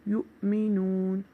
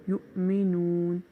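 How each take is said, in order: No difference in how they are said.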